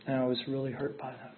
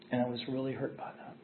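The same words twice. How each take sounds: The two takes are said the same way.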